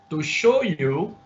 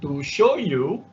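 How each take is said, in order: Both takes have the same delivery.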